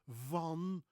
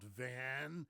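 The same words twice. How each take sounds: First: The word has a Dutch vowel. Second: The word has an American English vowel. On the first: The speaker calls it right. "Martin van" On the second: The speaker calls it wrong. "not Van"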